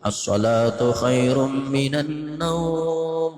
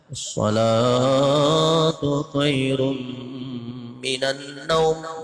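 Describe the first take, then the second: First: The last word's vowel is drawn out long. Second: The last word's vowel is kept short. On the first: "panjang naumnya boleh" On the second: "Kalau di Makkah itu handap"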